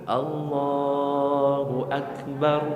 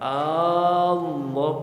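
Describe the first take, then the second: First: The first vowel of Allah is short. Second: The first vowel of Allah is drawn out long. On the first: It states that God is great. The speaker calls it right. "Yang benar gimana?" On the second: It asks whether God is great. The speaker calls it wrong. "ada yang takbir hanya dipanjangkan"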